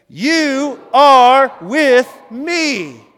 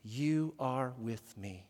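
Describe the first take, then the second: First: Slow, high, booming shout; drawn-out, full-force declaration of faith; full conviction. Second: Soft, low and very slow; measured, low call for repetition; hushed lead-in phrase. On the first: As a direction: proclaim each word at the top of your voice. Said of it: "say it with full conviction". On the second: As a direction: quietly give the phrase to be repeated, word by word. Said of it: "and then you repeat after me". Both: Shown as a demonstration.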